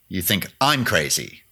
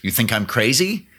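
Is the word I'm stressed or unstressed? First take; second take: stressed; unstressed. First: The word I'm is stressed. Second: The word I'm is not stressed.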